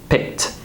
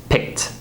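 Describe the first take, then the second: No difference in how they are said.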